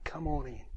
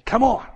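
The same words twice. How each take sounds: First: Soft, gentle invitation; God softly welcoming a believer into heaven; gentle welcome. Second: High, loud, joyful call; God loudly cheering Ian in at heaven's gate; joyful shout. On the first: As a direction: welcome them in quietly, like a host at the door. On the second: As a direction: shout the welcome like a cheering crowd. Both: Acted.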